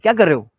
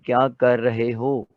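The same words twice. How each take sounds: First: It is said fast with words run together. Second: It is said slowly with every word clear.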